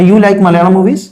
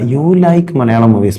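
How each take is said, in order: First: The voice rises at the end like a question. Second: The voice falls at the end like a statement. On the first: It asks whether it is true. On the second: It states a fact.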